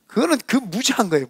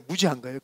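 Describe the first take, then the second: First: Said in the usual way. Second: Softer, lower repeat; quietly repeating the verdict to himself; quiet echo. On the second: Real, not acted. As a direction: drop it to a muttered aside.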